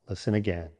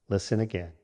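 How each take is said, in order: Both takes have the same delivery.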